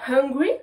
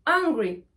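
First: Hungry with a clear puff of h; hungry, opening h fully sounded; breathed H. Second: Hungry with no h, like angry; Hungry said as "angry", no breath first; silent H. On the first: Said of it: "prendre sa respiration". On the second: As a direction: start Hungry right on the vowel. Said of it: "je suis énervé". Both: Shown as a demonstration.

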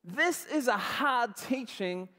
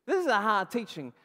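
First: Slow, measured reading of the verse; scripture reading. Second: Louder, pushy complaint; disciples complaining. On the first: Shown as a demonstration. Preacher reading scripture to the congregation, slow and measured. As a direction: read the verse slowly as the text. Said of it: "it says". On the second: Acted. Disciples protesting to Jesus, loud complaint. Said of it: "That's their question".

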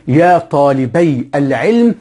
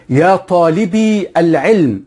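First: Slow model phrase, طالبي ending in "-bay"; dual ending -ay. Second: Slow, raised model phrase, طالبي ending in "-bee"; plural ending -ee. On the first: Teacher demonstrates the dual to students, طالبي pronounced "taalibay". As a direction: say طالبي as "taalibay", with a drawn-out diphthong. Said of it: "مثنى". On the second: Teacher contrasts plural with dual, طالبي pronounced "taalibee". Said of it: "جمع مذكر سالم". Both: Shown as a demonstration.

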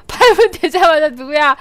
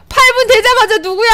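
First: Lower amused repeat. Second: Amused outcry. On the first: Repeat, lower, amid laughter. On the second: First take, amid laughter. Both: Real, not acted.

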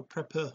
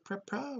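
First: Prepper ending in a short "uh"; reduced "uh" ending. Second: Prepper ending in an open "ah". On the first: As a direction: say prepper as "prep-puh". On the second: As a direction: say prepper as "prep-PAH". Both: Shown as a demonstration. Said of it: "Is it prepper or prepper?".

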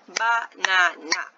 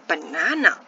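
First: Slow Banana in three even beats, BA-NA-NA; syllable by syllable. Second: Said in the usual way. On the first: Shown as a demonstration. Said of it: "It has three syllables". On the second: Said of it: "Let's try to break it up".

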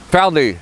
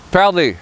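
First: Parler said again, same French par-lay; French pronunciation repeated. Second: Parler, said par-lay in French; French pronunciation. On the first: Teacher repeats parler for learners to copy. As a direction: echo parler for the class. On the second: Teacher models parler for learners, careful French. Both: Shown as a demonstration. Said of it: "you would have to say".

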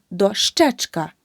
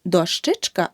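First: Дощечка slowly, with a clear е after щ; correct suffix demo. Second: Дощечка with и after щ; the mistake in дощечка, и for е in the suffix; wrong suffix demo. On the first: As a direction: say дощечка as "do-SHCHECH-ka". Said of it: "Дошка плюс ечк". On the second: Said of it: "Не дощечка". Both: Shown as a demonstration.

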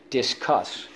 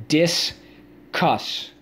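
First: Said in the usual way. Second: "Discuss" split as dis, cuss, pitched up; syllable by syllable. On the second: Shown as a demonstration. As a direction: sound out "Discuss" in two separate beats. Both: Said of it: "Let's go".

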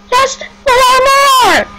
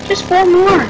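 First: Much higher, slow, cracking shout; slow pleading yell; desperate cry. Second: Said in the usual way. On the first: Real, not acted. Pleading for more kills.

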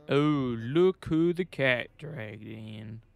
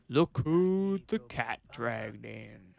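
First: Slow, a bit louder put-on voice, lightly done; character voice. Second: Slow put-on gruff officer voice, mildly done; character voice. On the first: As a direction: tease the rookie cop with a mocking voice. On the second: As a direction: greet the returning cop like a grizzled captain. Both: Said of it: "why am I doing that voice?".

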